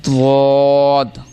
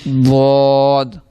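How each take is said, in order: First: It begins with a heavy d-like sound. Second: It begins with a heavy d-like sound.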